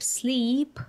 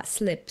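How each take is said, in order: First: "sleep" with a long ee, pitched higher; long vowel. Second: "slip" with a short, lax i; short vowel. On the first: Demonstrating hard vowels for learners, long vowel. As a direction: draw out and lift "sleep". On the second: Demonstrating hard vowels for learners, short vowel. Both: Shown as a demonstration. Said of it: "long and short sounds like".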